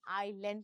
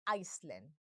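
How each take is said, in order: First: The word is said without an s sound. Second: The word is said with an s sound. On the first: The speaker calls it right. "इसे हम आइलैंड pronounce करते हैं" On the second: The speaker calls it wrong. "ना कि आइसलैंड"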